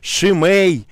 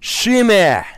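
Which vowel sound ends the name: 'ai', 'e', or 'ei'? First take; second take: ei; e. First: The name ends in an 'ei' sound. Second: The name ends in a plain 'e' sound. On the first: The speaker calls it wrong. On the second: The speaker calls it right. "это Шиме"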